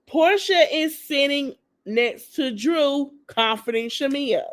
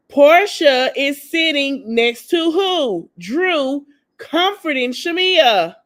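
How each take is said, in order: First: Slow, measured restatement, less forceful; drawn-out, evenly spaced emphasis; deliberate repeat. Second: Slow, loud, raised emphasis on "Portia is sitting next to who"; "Portia" punched loud, every word stretched for effect; pointed emphasis. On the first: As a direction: repeat it slowly, word by word, to drive it home. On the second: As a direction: spell out "Drew, comforting Shamia" slowly, high and pointed. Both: Real, not acted. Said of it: "I'ma say it again".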